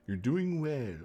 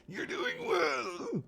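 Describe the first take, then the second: First: Higher, mildly put-on character voice; lightly piping Capitol voice. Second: Extremely high, slow, drawn-out falsetto; absurdly high mock Capitol voice; squeaky Capitol voice. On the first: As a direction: start a high encouraging Capitol quote. First try at Capitol character's quote. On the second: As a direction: squeal it slowly as a hammed-up Capitol stylist. Redoes quote in squeaky Capitol voice.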